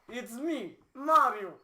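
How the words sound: It is said in a put-on Russian accent.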